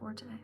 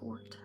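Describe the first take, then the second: First: It is said as two syllables, ending in tay. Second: It is said as one syllable, like fort. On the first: The speaker calls it wrong. "and not forte" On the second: The speaker calls it right. "the correct pronunciation is actually fort"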